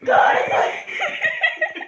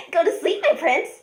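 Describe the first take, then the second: First: Very high, slow breathy whisper; a killer hissing someone to sleep, slowly; creepy whisper. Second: Lightly voiced creepy killer girl; a hint of a sweet, sinister lullaby; Nina the Killer voice. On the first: Acted. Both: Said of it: "gonna do a random Nina the Killer impression".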